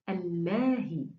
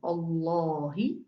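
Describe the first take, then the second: First: The L is pronounced thin and light. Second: The L is pronounced thick and heavy. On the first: "The second one, the thin one" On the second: "the first one was preceded by Dhamma"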